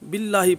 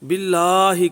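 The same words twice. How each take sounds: First: The vowel after the double L is cut short. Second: The vowel after the double L is held long. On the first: The speaker calls it wrong. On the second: The speaker calls it right.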